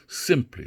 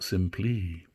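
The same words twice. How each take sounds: First: The stress is on the first syllable. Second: The stress is on the second syllable. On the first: The speaker calls it right. "so we reverse uh, the I am into a trochee here" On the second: The speaker calls it wrong. "not simply"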